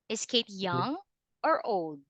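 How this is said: The pitch rises within the question. The speaker calls it right. "You can hear the rising"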